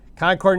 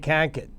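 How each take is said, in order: First: Concord is said in a general American accent. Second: Concord is said in a local New Hampshire accent.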